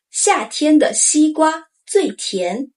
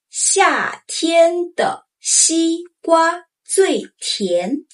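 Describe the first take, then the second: First: Said in the usual way. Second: 夏天的西瓜最甜 very slowly; slow model sentence. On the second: Shown as a demonstration. Teacher modeling for learners to try, very slow. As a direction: spell out every syllable. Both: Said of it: "Try this".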